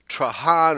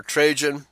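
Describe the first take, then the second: First: Trajan said "trah-HAHN"; alternative pronunciation. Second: Trajan said "TRAY-jun"; alternative pronunciation. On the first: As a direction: Trajan as "tra-HAHN", tentative foreign-style reading. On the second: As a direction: say Trajan with a long A and English j. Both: Shown as a demonstration. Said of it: "not sure how to pronounce it".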